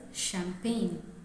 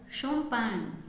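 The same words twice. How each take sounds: First: The word has an English pronunciation. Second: The word has a French pronunciation. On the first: "In English, we pronounce it as" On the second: "In French, we pronounce it as"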